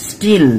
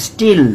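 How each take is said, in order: Both takes have the same delivery.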